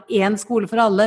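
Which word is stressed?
en. The stress falls on the word en. There should be a single school for everyone. The speaker calls it wrong. "jeg skulle ønske at vekten i uttalelsen av den setningen ikke var"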